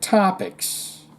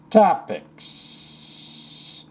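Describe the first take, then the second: First: Said in the usual way. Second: TOPICS with a long hissed S at the end; exaggerated final S. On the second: Host playing with a word from the letter, TOPICS ending in a drawn-out hiss.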